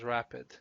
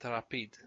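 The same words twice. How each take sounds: First: It is pronounced like the English word rapid. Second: It is pronounced with Romanian vowels and sounds. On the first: "which is exactly as it sounds" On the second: "but we pronounce it"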